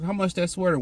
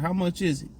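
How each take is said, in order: First: It is asked in a curt, rude tone. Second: It is asked in a friendly, pleasant tone.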